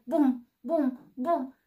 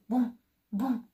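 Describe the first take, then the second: First: Loud, heavy booming steps; louder booms. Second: Booming footsteps, still far off; approaching bear steps, moderately loud; distant booms. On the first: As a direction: thud it out as the bear nears. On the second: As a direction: thumps getting closer. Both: A narrator's reading. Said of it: "din ce în ce mai tare".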